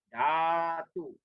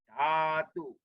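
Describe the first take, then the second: Both takes have the same delivery.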